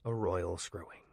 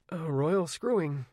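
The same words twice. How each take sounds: First: Said in the usual way. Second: Mild. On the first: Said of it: "A royal screwing he said mildly". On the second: A narrator's reading. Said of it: "he said mildly".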